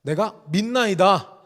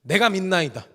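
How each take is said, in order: First: 내가 믿나이다 drawn out slowly and louder, leaning on 믿나이다; slow emphatic declaration. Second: Cried out. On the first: Father declaring faith to Jesus, slow and weighty. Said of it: "이렇게 얘기하는 겁니다". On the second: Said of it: "더 소리를 지르면서". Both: Retold or imitated.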